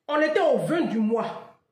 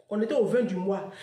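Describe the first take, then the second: First: Said slowly, each word weighed; slow emphasis. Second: Said in the usual way. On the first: Shown as a demonstration. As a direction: lean hard on était, On était au vingt du mois, slow and louder. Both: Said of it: "repeats the line".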